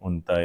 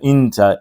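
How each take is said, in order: First: The first vowel is a 'u' sound. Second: The first vowel is an 'i' sound. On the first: This form is not used anywhere. The speaker calls it wrong. "अलिफ की पेश वाला कोई भी नहीं है" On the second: This form is used in some common dialects. The speaker calls it right. "अलिफ की जेर के साथ"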